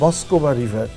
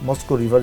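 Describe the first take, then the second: First: The name ends with an added 'va' sound. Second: The name ends without any 'va' sound. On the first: This is how the locals say it. "এটাকে বলে মস্কোবা river... ওরা ভ উচ্চারণটা প্রায় চলে আসে" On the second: This is the familiar outside form of the name. "মস্কো river যেটা"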